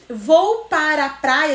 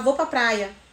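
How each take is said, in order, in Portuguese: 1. Cada sílaba é pronunciada completa e cuidadosamente. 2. As sílabas são encurtadas e ligadas umas às outras. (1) "às vezes a gente não fala assim" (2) "a gente fala"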